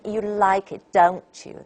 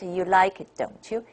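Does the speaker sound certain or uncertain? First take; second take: certain; uncertain. First: It sounds certain, expecting the answer yes. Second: It sounds uncertain, asking a real question.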